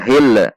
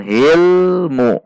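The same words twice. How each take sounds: First: "hil" released with a small echo after the L; "hil" with a rebound on the final L; bouncing L mistake. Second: "hilmu" with a held L running smoothly into mu; slow "hilmu", L sustained; no bounce. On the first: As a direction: show the wrong "hil", L bouncing off. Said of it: "ada pantulan. Tidak dibaca hil". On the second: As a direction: hold the L in "hilmu" without a rebound. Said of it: "Tidak dibaca hil. Namun hilmu". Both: Shown as a demonstration.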